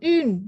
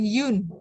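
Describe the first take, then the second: First: The word begins directly with a rounded vowel. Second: The word begins with a y sound. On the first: The speaker calls it right. "Jadi un" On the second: The speaker calls it wrong. "bukan yun"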